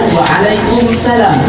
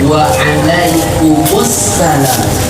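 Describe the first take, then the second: First: 'Kum' runs straight into 'salam' without a vowel. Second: 'Kum' links into 'ssalam' with an added 'u'. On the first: The speaker calls it wrong. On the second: The speaker calls it right. "langsung masuk dari dhammah ke alif lam"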